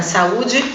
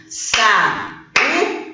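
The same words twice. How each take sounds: First: Said in the usual way. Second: "Sa-u-de" split into three drawn-out syllables with gaps. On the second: Shown as a demonstration. Teacher showing the class a hiatus, "Sa-u-de" syllable by syllable. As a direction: break "Sa-u-de" apart, a beat between syllables. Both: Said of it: "Importante separar as sílabas".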